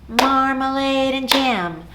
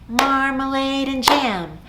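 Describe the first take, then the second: No difference in how they are said.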